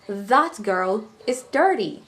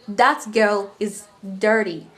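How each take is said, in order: First: That begins with a voiced th sound. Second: That begins with a plain d sound. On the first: The speaker calls it right. "We say" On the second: The speaker calls it wrong. "we don't say"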